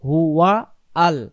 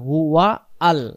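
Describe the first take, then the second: No difference in how they are said.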